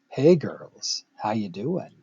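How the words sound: It is said in a smooth, flirty voice.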